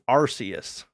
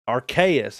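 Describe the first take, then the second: First: The name begins without a clear 'ark' sound. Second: The name begins with a clear 'ark' sound. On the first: The speaker calls it wrong. "that automatically rules out the Arceus" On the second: The speaker calls it right. "It's it's it's at least Arceus, Arc"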